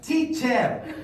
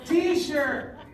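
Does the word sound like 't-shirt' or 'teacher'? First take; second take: teacher; t-shirt. First: The middle sound is a clear 'ch' sound. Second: The middle sound is a 'sh' sound. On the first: The speaker calls it right. "what do I call that lady before I go to the bathroom? Teacher" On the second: The speaker calls it wrong. "Instead of saying teacher, I would say t-shirt"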